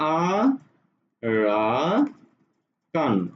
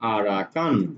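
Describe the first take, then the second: First: It is said slowly with pauses between syllables. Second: It is said smoothly as one word.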